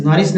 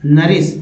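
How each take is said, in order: First: नरिस misread as "noris"; wrong reading. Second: नरिस said as "naris"; correct reading. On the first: Teacher showing learners the rejected reading, wrong reading. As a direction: open with an O vowel, "NO-ris". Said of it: "नरिस नहीं". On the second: Teacher giving learners the right reading, correct reading. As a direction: open नरिस with an A vowel, "na-ris". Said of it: "नरिस नहीं, नरिस". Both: Shown as a demonstration.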